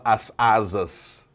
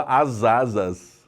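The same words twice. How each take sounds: First: "as asas" slow, each syllable separate; "as asas" with a pause between words; syllables apart. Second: "as asas" slow, joined as "a-za-zas"; "as asas" with the s linked to the vowel; linked syllables. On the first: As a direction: stretch "as asas" slowly with clear breaks. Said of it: "você não fala". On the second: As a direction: glide "as asas" into one word, slowly. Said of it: "Você fala". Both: Shown as a demonstration.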